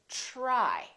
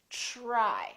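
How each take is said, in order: First: It begins with a soft ch-like sound. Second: The same.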